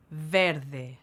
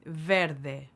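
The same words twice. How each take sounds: The two takes are said the same way.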